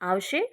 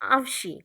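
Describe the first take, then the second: First: The word ends in an 'e' sound. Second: The word ends in an 'i' sound. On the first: This is the standard form. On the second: This is the northern Patani dialect form.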